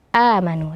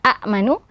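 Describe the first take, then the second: First: The first vowel is held long, with no stop. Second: A glottal stop follows the short first vowel. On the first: The silent hamzah is replaced by a long vowel. "menjadi amanu dan dibaca dua harokat" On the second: This is the underlying form before the rule applies. "yang harusnya amanu"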